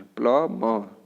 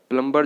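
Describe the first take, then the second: First: प्लम्बर as "pla-maa", silent b and r; correct pronunciation. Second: प्लम्बर with b and r sounded: plum-bar; broken-up wrong pronunciation. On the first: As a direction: say प्लम्बर like "plummer" without r. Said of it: "आर यहाँ पे बिल्कुल silent". (प्लम्बर को "प्लमा" बोलें) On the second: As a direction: say प्लम्बर with every letter heard. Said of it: "पूरा तोड़ के बोलते हैं". (प्लम्बर में ब और र साफ़) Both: Shown as a demonstration.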